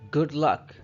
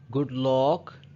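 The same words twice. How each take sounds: First: The vowel in luck is neutral, from the throat. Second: The vowel in luck is not neutral. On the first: The speaker calls it right. "From your throat, say good luck" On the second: The speaker calls it wrong. "Do not say good luck"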